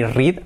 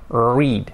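First: "read" with a rolled Spanish R; wrong Spanish R. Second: "Read" with a held English R, no trill. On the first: Teacher shows learners what to avoid, mispronunciation demo. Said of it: "ni read". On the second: Teacher corrects the rolled R, pronunciation demo. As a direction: draw out a smooth untrilled R in "Read". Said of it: "ese sonido, ¿ok?". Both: Shown as a demonstration.

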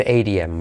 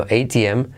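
First: "A T M" with T tapped like "ay-dee-em"; softened T, wrong. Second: "A T M" with a crisp full T; hard T. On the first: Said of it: "ahí no se dice". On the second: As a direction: keep the T hard in "A T M". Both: Shown as a demonstration.

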